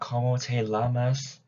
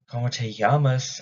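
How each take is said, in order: First: The double L is pronounced like an L sound. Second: The double L is pronounced like a Y sound. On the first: It asks how you lick yourself. The speaker calls it wrong. "So it's not como te llamas, that means how do you lick yourself" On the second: It asks what your name is. The speaker calls it right. "double L's are always pronounced as Y's"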